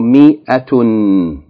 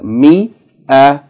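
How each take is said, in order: First: The word ends with an added -tun. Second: The word ends on a plain vowel. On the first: The reading continues past this word. "it's pronounced mi-atun if you continue reading" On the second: The reading stops on this word. "If you stop, it is pronounced mi-a"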